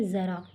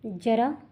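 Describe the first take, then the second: First: ज़रा said with a buzzing z at the start; z sound with nukta. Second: जरा with a plain hard j, no nukta; plain j sound. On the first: Teacher showing students the nukta sound, buzzing z. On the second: Teacher contrasting j and z for students, plain j. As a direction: say जरा with an ordinary j as in jam. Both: Shown as a demonstration. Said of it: "इसमें ज और ज के उच्चारण में, दोनों में फ़र्क है".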